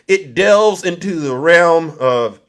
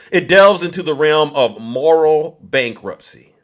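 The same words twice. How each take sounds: First: Throat catching mid-phrase, pausing to clear it; words broken by a throat clear; choked up, clearing throat. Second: Said in the usual way. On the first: Real, not acted. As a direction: push through a real catch in the throat. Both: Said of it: "I'm choking up".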